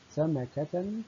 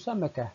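First: The word ends with a t sound, linked onward. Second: The word ends with an h sound at a pause. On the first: "عند الوصل تنطق تاء" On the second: "إذا وقفت عليها أقول سمكة بالهاء"

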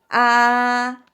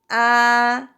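First: It is said with the high first tone. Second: The same.

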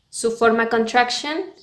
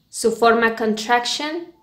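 The two takes are said the same way.

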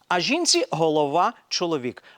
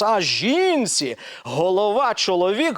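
First: The phrase is read evenly, without special emphasis. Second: The phrase is read with strong, marked emphasis. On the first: All parts of the verse matter equally. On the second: The husband's headship over the wife is the main point.

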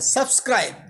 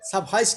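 First: The middle has a full skr consonant cluster. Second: The middle has an h sound, no skr cluster. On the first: The speaker calls it right. "সাবস্ক্রাইব বলেন" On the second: The speaker calls it wrong. "সাবহাইস না"

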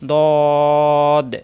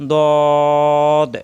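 Both takes have the same delivery.

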